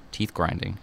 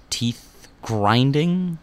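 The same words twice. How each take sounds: First: Said in the usual way. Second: Teeth grinding dragged out and higher; drawn out. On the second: Shown as a demonstration. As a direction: say "teeth grinding" slowly, leaning on grinding.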